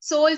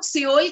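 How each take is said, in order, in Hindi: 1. नाम एक शब्दांश में बोला जाता है, sole। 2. नाम दो शब्दांशों में बोला जाता है, see-ol। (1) "इसका सही करेक्ट प्रोनाउंसिएशन है सोल" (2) "इंडिया में हम लोग सियोल कहते हैं"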